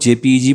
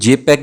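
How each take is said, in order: First: It is spelled out letter by letter. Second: It is said as one word, jay-peg. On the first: This is how it is mostly said in India. "कई लोग जेपीईजी बोलते हैं" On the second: This is how it is said in other countries. "कई लोग इसको जेपैग भी बोलते हैं"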